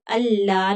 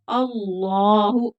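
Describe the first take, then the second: First: अल्लाह stopped short without the final u; अल्लाह cut off at the h; wrong way, clipped. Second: अल्लाहु slow, with the final u clearly sounded; full final u. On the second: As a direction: say अल्लाहु drawing out the ending hu. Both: Shown as a demonstration. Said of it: "अल्लाह नहीं पढ़ेंगे".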